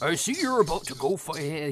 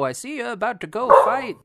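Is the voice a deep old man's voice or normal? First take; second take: deep old; normal. First: It is said in a deep, old voice. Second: It is said in an ordinary voice. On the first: The speaker calls it right. "He was like a darker old, like, I mean, a deeper old man voice" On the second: The speaker calls it wrong. "Oh, wait, no"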